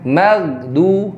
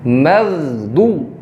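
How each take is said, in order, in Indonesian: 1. Bunyi d-nya tipis dan ringan. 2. Bunyi d-nya tebal dan berat. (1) "jangan magdu" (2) "harus ditebalkan suaranya"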